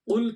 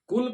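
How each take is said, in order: First: It starts with a heavy, deep-throat Q sound. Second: It starts with a light, plain K sound. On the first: It means 'say'. The speaker calls it right. "कौफ मोटा पढ़ेंगे" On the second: It means 'eat'. The speaker calls it wrong. "अकल यकुलु से। इसके माना है खाना।"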